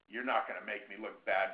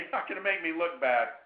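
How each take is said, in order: First: It sounds stern and threatening. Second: It sounds friendly but serious. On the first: The listener feels intimidated. The speaker calls it wrong. "sounding like you're from the Secret Service or law enforcement" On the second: The listener feels gentle, friendly pressure. The speaker calls it right. "kind of friendly, but serious"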